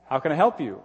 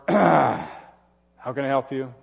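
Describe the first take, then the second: First: The tone of voice sounds warm and loving. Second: The tone of voice sounds cold and unloving. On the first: The speaker genuinely wants to help. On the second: The speaker does not really want to help.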